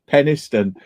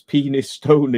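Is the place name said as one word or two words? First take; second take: one word; two words. First: It is said as one word, Peniston. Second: It is said as two words, penis stone. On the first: This is the usual local pronunciation. "which probably a lot of people in Yorkshire used to Peniston" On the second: The name is read as it is written. "but it's written Penis Stone... if you want to pronounce it differently"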